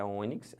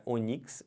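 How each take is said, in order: First: Ônix stressed on the first syllable, Ô; front-stressed ônix; correct stress. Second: Onix stressed on the last syllable, NIX; wrong stress. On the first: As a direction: say ônix as Ô-nix. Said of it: "é". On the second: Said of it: "não é". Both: Shown as a demonstration.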